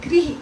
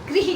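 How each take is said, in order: First: The first syllable is said as 'gri'. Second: The same.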